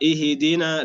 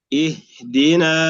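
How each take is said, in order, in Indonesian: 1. Bunyi h dipantulkan dengan gema. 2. Bunyi h ditahan tetap, tanpa pantulan. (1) "لا نقرأها بالقلقلة" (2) "سكون الهاء"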